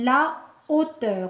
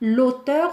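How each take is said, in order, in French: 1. La voyelle de l'article est conservée devant le nom. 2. La voyelle de l'article est élidée devant le nom. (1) "on dit la hauteur" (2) "On ne dit pas l'auteur"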